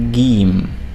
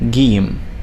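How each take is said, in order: First: It begins with a hard G sound. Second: It begins with a hard G sound.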